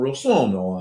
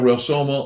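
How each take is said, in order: First: The name is said with exaggerated Italian flair. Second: The name is said plainly, without Italian flair.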